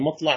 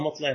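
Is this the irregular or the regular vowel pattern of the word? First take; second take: regular; irregular. First: The word has its regular vowel pattern. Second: The word has its irregular vowel pattern. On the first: It follows the standard rule for place or time nouns. "مطلع هو القياس، هو اسم مكان أو اسم زمان قياسي" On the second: It is used only because the Arabs said it so. "وأما مطلع فهو سماعي، يعني لا يقاس عليه"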